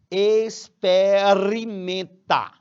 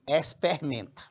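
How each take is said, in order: First: The word is said with every sound in full. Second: The word is said in a reduced everyday form. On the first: The speaker calls it right. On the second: The speaker calls it wrong.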